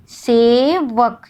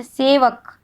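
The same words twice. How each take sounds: First: सेवक stretched very slowly, each sound held; drawn-out demo word. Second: Said in the usual way. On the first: Shown as a demonstration. Teacher to students, slowly stretching सेवक to show अक. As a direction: say सेवक slowly so the final अक is heard. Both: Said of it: "जब उच्चारण हम लोग कर रहे हैं".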